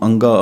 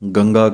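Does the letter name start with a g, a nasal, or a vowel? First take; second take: vowel; g. First: It starts with a plain vowel sound. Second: It starts with a hard g sound. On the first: Many people commonly say it this way. "ਆਮ ਹੀ ਇਹਨੂੰ ਅੰਗਾ ਆਖ ਦਿੰਦੇ ਹਨ ਕਈ" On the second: Some people who do not know say it this way. "ਕਈ ਅਣਜਾਣ ਗੰਗਾ ਕਹਿ ਦਿੰਦੇ ਹਨ ਗੱਗੇ ਵਾਲਾ"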